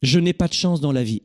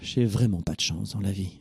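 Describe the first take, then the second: First: It is said in a plain, neutral tone. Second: It is said dejectedly, with a big sigh.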